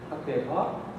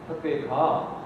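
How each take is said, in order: First: It is said with a questioning intonation. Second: It is said strongly, like a scolding command. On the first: The speaker asks if the listener is going. "이거는 뭐 의문문이 맞죠?" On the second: The speaker orders the listener to go. "이건 명령문이고 ... 질책하듯이 좀 강하게 명령하는"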